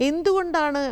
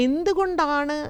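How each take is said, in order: Both takes have the same delivery.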